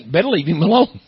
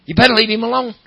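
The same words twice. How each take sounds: First: Said in the usual way. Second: "better" hit hard, higher and louder; emphatic warning. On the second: Acted. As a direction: drive home the warning. Repeats warning, preaching harder.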